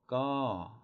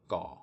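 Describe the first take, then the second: First: The pitch falls from high to low. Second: The pitch stays level and low. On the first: "it's going to be a falling tone" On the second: "it's going to be a low tone"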